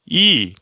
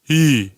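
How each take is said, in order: First: The vowel resonates toward the front. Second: The vowel resonates toward the back. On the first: "소리가 앞에 있을 때" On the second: "뒤로 갈 때"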